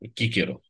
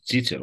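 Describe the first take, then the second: First: The name begins with a hard k sound. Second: The name begins with a ts sound. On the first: "ce, ci, citim chi" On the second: "unii zic că este de fapt să pronunța ți"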